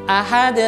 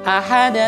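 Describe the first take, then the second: The two takes are said the same way.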